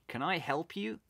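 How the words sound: It is said in a male-sounding voice.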